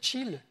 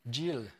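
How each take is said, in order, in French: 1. Le mot commence par un son 'ch' sourd. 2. Le mot commence par un son 'j' sonore. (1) "je l'ai bien dit chill" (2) "D'habitude, j'ai dit Jill"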